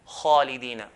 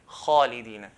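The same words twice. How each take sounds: The two takes are said the same way.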